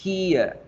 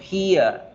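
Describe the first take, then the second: No difference in how they are said.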